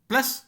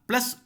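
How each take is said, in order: No difference in how they are said.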